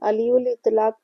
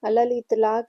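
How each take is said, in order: First: The first word sounds like 'aliul'. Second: The first word sounds like 'alal'. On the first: The speaker calls it wrong. "बहुत से लोग अलीउल इतलाक पढ़ते हैं जो कि गलत है" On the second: The speaker calls it right. "इसका सही तलफ़ुज़ अलल इतलाक है"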